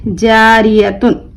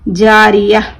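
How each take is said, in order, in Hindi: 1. यह शब्द 'tun' की ध्वनि से खत्म होता है। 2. यह शब्द 'h' की ध्वनि से खत्म होता है।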